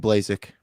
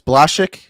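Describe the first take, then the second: First: The surname is said with simplified English sounds. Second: The surname is said with Polish sounds. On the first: This is the form adopted after emigrating. "Here here we just do" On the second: This is the original form from the old country. "in Poland it was"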